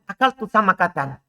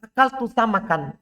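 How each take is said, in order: First: Samakatan said in full as the intended word; corrected word. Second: Samakan said as a deliberate slip, flat and unfinished; wrong first try. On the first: Teacher showing the corrected word after the slip, plain fix. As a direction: land the corrected "samakatan" clearly. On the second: Teacher demonstrating a slip of the tongue, a mock wrong word. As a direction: say "samakan" as the mistaken word before correcting it. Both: Shown as a demonstration. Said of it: "contohnya tanya".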